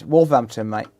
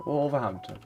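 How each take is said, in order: First: Local Wolverhampton accent. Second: Said in the usual way. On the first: Shown as a demonstration. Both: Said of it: "Local accent".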